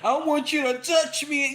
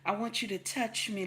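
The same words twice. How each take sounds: First: The voice is hard and harsh. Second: The voice is soft and gentle. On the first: The speaker calls it wrong. "some woman with a nasty one" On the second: The speaker calls it right. "baby, come, you know"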